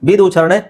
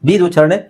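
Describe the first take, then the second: Both takes have the same delivery.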